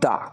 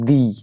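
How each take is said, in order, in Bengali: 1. শব্দটি ছোট 'uh' স্বরধ্বনি দিয়ে শেষ হয়। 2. শব্দটি দীর্ঘ 'ee' স্বরধ্বনি দিয়ে শেষ হয়। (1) "যদি এখানে কনসোনেন্ট দিয়ে শুরু হতো তাহলে দা বলতাম" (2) "উচ্চারণটা কি করব দি করব"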